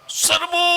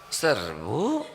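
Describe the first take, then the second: First: It is shouted with strong, rousing energy. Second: It is said weakly, with limp, low energy. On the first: The troops feel fired up to charge. "semangat tidak?" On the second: The troops lose their spirit. "Ganti nadanya, kata-katanya sama ... Jadi letoy"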